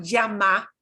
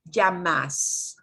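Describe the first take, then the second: First: LLAMA ending on an open "ah", no S. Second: LLAMAS closed with a clear final S; slow LLAMAS, finishing on a hissed "s"; S at the end. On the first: Teacher contrasts verb endings, llama left open on A. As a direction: let LLAMA hang on its final A. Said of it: "with the A hanging off the end". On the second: Teacher contrasts verb endings, llamas with an audible final S. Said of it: "with an S at the end". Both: Shown as a demonstration.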